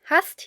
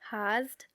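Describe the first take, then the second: First: The S is sharp and hissing. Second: The S is soft and buzzing. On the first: The speaker calls it right. "It is pronounced sharp" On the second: The speaker calls it wrong. "it would be a soft S, so we would have to say hast"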